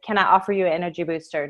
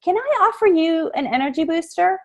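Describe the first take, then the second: First: Can I offer you an energy booster? rattled off fast, lower and softer, falling at the end; quick offer. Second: Can I offer you an energy booster? pitched higher with a lifted, rising end; bright sales pitch. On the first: Saleswoman catching a passer-by's eye, fast low offer. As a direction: toss it off quickly in passing. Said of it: "I draw their attention with". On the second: Saleswoman greeting a passer-by at her table, pitched higher and rising. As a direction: sing out the offer high and inviting. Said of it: "and you say". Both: Shown as a demonstration.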